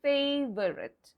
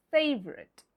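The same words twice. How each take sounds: First: FAVORITE in three syllables, FAY-vuh-rit; spelling pronunciation. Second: FAVORITE in two syllables, FAYV-rit; silent letters. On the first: Teacher showing a common mistake, FAVORITE said as spelt, FAY-vuh-rit. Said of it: "sometimes pronounced according to the spelling". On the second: Teacher modelling the correct word, FAVORITE as FAYV-rit. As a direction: say FAVORITE as FAYV-rit, dropping the middle vowel. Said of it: "what's the pronunciation like?". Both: Shown as a demonstration.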